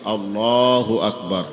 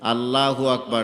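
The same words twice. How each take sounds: First: The L in Allahu is thick and heavy. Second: The L in Allahu is thin and light. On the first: The speaker calls it right. "মোটা হবে" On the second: The speaker calls it wrong. "না"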